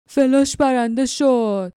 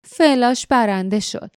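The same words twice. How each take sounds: First: Slow, drawn-out cry of triumph in a gruff voice; excited roar. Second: Slow, grudging admission; annoyed. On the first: Glock cheers his spider's win with a mild excited roar. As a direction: crow over the winning spider, stretching it out. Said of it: "گلاک با هیجان نعره کشید". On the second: Jinks grudgingly admits he lost the spider bet. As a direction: concede it through your teeth, sulking. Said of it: "جینکس با دلخوری تایید کرد". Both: Acted.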